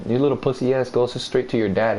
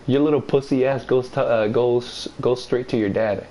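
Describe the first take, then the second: First: Said in the usual way. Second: Tripping over "goes", repeating it; stuttered "your little pussy ass goes, uh, goes"; stumbling. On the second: Real, not acted. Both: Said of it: "I said it perfect too".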